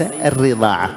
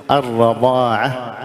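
First: «الرضاعة» with an i after the doubled r; kasra on ra. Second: «الرضاعة» drawn out, with an a after the r; fatha on ra. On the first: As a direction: say «الرضاعة» as ar-ridaa'a, the wrong reading. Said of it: "وليس". («الرضاعة» بكسر الراء خطأً) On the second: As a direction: say «الرضاعة» slowly as ar-radaa'a. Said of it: "أتت بالفتح، نقول". («الرضاعة» بفتح الراء ممدودة) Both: Shown as a demonstration.

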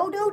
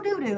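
First: "do-do" said with a long o, like dough-dough; dodo pronunciation. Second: "doo-doo" said with a long oo, like too-too; doo-doo pronunciation. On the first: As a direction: say "do-do" as doh-doh, the bird name. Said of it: "It's like it's spelled doo-doo, or is it do-do?". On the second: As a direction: say "doo-doo" as doo-doo, the poop word. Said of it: "It's like it's spelled doo-doo". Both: Shown as a demonstration.

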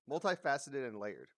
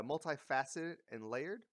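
First: Said in the usual way. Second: "multifaceted and layered" rising like a question; "layered" tipped upward, as if checking the words; questioning recall. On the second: Real, not acted. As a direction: say "multifaceted and layered" unsure, lifting at the end. Unsure recalling of her words.

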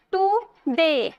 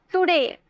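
First: today very slow, tu... de; two drawn-out beats on today with a gap; split into syllables. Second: Said in the usual way. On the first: Shown as a demonstration. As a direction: pull today apart to count syllables. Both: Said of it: "दो syllable आया ना".

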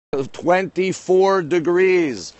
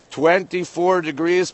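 First: Slow, stretched numbers; drawn out. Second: Said in the usual way. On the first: Shown as a demonstration. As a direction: stretch every syllable slowly. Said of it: "Twenty-four degrees, people".

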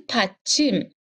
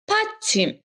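First: Said in the usual way. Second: پدچیم alone, higher and clearly articulated as "pætim"; Korean model pronunciation. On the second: Shown as a demonstration. Korean teacher to Persian students, modeling پدچیم, higher and careful.

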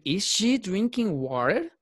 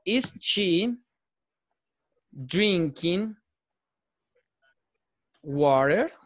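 First: "Is she drinking water" slow and higher, "she" stressed, rising at the end; changed question pronunciation. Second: "Is she drinking water" drawn out with a rising question tune; question pronunciation. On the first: Teacher contrasting the question form's pronunciation for the class. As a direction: lift "she" and let the question climb slowly. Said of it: "Ya lo hago de manera distinta, cambia la pronunciación allí".

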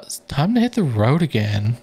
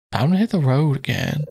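First: Said in the usual way. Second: Lightly voiced game hero; character voice. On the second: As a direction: hit stressed, light hero read. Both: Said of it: "going in and out of these voices".

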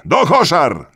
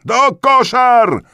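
First: High, loud, quick crowd cry; rallying shout. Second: Very high, drawn-out yell; escalated rallying shout. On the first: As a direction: shout the slogan briskly. (krótki, wysoki okrzyk) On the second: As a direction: stretch the slogan into a full-throated cry. (przeciągły, bardzo wysoki okrzyk) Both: A narrator's reading.

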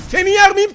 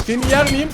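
First: "yer" pushed up high and loud, a playful threat; louder, higher taunt at the enemy; mock menacing taunt. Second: Said in the usual way. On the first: Shown as a demonstration. (alaycı, yüksek sesle tehdit)

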